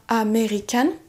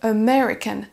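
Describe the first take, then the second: First: The stress is not on the second syllable. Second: The stress is on the second syllable. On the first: The speaker calls it wrong. "On ne dira pas" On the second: The speaker calls it right. "On va accentuer sur la deuxième syllabe"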